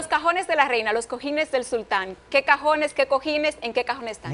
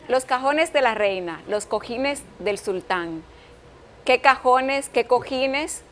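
First: It is said at a fast pace. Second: It is said at a normal pace.

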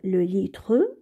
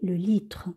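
First: The final E is pronounced as a vowel. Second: The final E is left silent. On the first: The speaker calls it wrong. "on ne veut pas dire le litre" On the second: The speaker calls it right. "le E, on ne le prononce pas"

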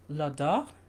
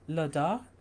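The two takes are said the same way.

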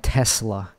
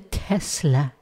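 First: The middle consonant is a hissing S sound. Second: The middle consonant is a buzzing Z sound. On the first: The speaker calls it wrong. "fuck saying Tesla" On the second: The speaker calls it right. "Say it with a Z"

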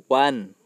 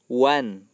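No difference in how they are said.

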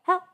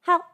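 Both takes have the same delivery.

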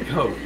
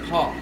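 First: The vowel is a long O, like 'coke'. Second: The vowel is short, sounding like 'cop'. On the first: The speaker calls it right. "you can say the O" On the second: The speaker calls it wrong. "it sounds like she's saying cop"

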